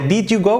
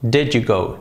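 First: The vowel in 'did' sounds like a tense 'ee'. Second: The vowel in 'did' sounds almost like 'e'. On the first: The speaker calls it wrong. "No sería did you go, no" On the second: The speaker calls it right. "Prácticamente una E"

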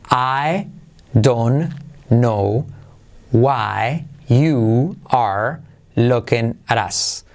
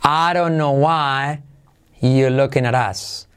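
First: The word 'are' is clearly pronounced. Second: The word 'are' is reduced away, words run together. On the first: "como sería pronunciando el verbo" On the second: "esto es la versión más extrema"

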